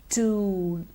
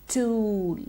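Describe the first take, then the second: Both takes have the same delivery.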